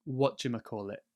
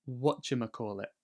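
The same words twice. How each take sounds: The two takes are said the same way.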